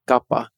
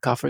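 First: The word begins with a g sound. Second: The word begins with a k sound. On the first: The speaker calls it right. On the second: The speaker calls it wrong.

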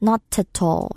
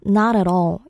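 First: Every T is pronounced clearly and more strongly. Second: Linked smoothly with soft, flapped T sounds.

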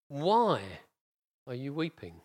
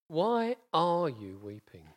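First: The word why carries the emphasis. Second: The word are carries the emphasis.

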